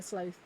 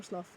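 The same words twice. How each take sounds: First: Sloth with a long "oh" vowel, like "slowth"; sloth one way. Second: Sloth with a short "o", like "sloth" rhyming with "cloth"; sloth other way. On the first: Unsure how to say sloth, first try. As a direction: say sloth rhyming with "growth". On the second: Correcting herself on sloth, second try. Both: Shown as a demonstration. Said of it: "however you say it".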